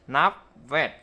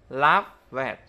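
No difference in how they are said.

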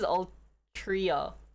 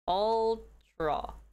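First: The name ends in 'tria', with three syllables. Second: The name ends in 'tra', with two syllables. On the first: The speaker calls it right. "I think this is Ultria" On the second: The speaker calls it wrong. "I don't think this is Ultra"

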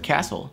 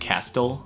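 First: No t sound is heard in the middle. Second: A t sound is heard in the middle. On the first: The speaker calls it right. "Просто castle" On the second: The speaker calls it wrong. "Никто не говорит castle"

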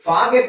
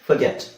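First: The first vowel is a long open ah. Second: The first vowel is a short weak uh. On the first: The speaker calls it wrong. "ಫಾಗೆಟ್ ಅಲ್ಲ" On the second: The speaker calls it right. "ಫಗೆಟ್ ಇದೇ ಸರಿಯಾದ ಉಚ್ಚಾರಣೆ"

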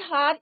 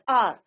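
First: The word begins with an h sound. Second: The word begins with a vowel sound. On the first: The speaker calls it wrong. "It's not हार" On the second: The speaker calls it right. "It's आर"

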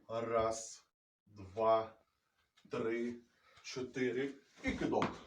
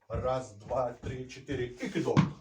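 First: The counting is spoken at a slow tempo. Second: The counting is spoken at a fast tempo. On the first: "демонструю все в повільному темпі" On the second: "Це виконувати тільки вже в швидкому темпі"

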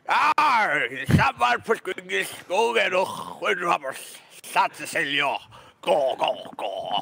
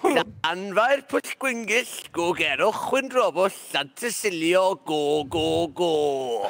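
First: It is said in a put-on pirate voice. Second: It is said in his plain voice.

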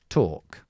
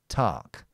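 First: The vowel is long with very rounded lips. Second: The vowel is said with less rounded lips. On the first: "British English, is with your lips very rounded" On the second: "If you want the American pronunciation, then you don't round your lips so much"

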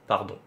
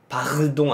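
First: The r sound is soft and barely heard. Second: The r sound is clearly pronounced. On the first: The speaker calls it right. "부드럽게 하면 돼. 짧게, 너무 세지 않게" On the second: The speaker calls it wrong. "파르동 아니고"

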